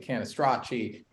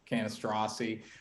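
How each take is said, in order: First: The surname is said with an Italian pronunciation. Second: The surname is said with another American pronunciation. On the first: "saying it the Italian way" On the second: "or Canistrassi"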